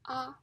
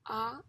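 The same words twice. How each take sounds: First: It is said with a high level pitch. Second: It is said with a rising pitch. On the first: "is the first tone" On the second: "is the second tone"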